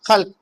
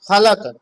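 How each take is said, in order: First: The l and k cluster together in one syllable. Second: An extra vowel splits it into two syllables. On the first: This is how native speakers say it. The speaker calls it right. "खल्क है, खलक नहीं है" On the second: This is how non-native speakers say it. The speaker calls it wrong. "वो कहते हैं कि ... खलक, बल्कि ऐसा नहीं"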